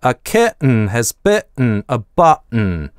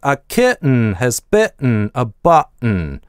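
No difference in how they are said.

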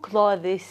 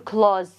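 First: The 'th' sound is pronounced before the final s. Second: The 'th' sound is dropped, like 'close'. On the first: The speaker calls it wrong. "مو clothes، خطا" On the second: The speaker calls it right. "هاي التي اتش ما تلفظ، كانه دا اقول كلوز"

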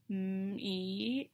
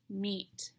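First: The word is stretched out sound by sound. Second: The word is said all at once. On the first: The sounds are being blended to work out the word. "listen as I slowly blend the sounds to read the word" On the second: The word is read as a whole. "And I can read the word meet"

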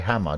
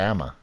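First: The word starts with a clear h sound. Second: The word starts with no h sound. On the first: "You don't say Hammer" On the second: "You say Emma"

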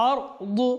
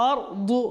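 No difference in how they are said.

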